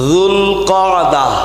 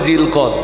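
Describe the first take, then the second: First: It is said with the fuller Arabic pronunciation. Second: It is said in the shortened local Bengali form. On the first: The speaker calls it right. "আসলে মাসটার নাম হলো যুলকাদা" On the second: The speaker calls it wrong. "আমাদের দেশীয় মানুষরা এত ভালো উচ্চারণ না করতে পারায় প্রচলিতভাবে বলেন"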